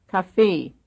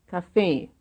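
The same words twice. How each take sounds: No difference in how they are said.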